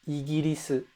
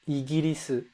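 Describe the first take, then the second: No difference in how they are said.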